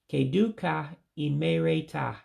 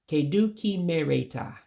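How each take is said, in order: First: The words 'ka' and 'i' stay separate syllables. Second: The words 'ka' and 'i' merge into 'ki'. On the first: This is the standard central form. "the Central Igbo way" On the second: This is the everyday common form. "more commonly said in this way"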